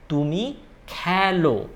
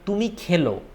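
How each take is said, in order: First: The first vowel of khelo sounds like a. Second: The first vowel of khelo sounds like e. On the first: The speaker calls it right. "It is তুমি খেলো. ... more of a a sound" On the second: The speaker calls it wrong. "It's not তুমি খেলো"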